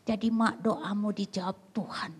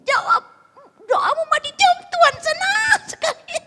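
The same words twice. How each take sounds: First: Said in the usual way. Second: High-pitched, loud jubilation; overjoyed shouting. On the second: Acted. Husband telling his wife her prayer was answered, high jubilant shouting. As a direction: squeal the good news at full volume.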